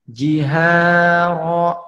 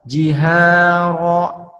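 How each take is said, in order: The two takes are said the same way.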